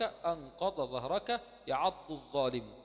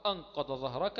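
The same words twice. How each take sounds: First: أنقض ظهرك slow, the ض of أنقض and the ظ of ظهرك each said distinctly; slowly and deliberately, keep ض and ظ apart; slow demonstration, no merging of ض into ظ; separate the dad and zaa clearly. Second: Said in the usual way. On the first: Shown as a demonstration. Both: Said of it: "يبقى تنطقها".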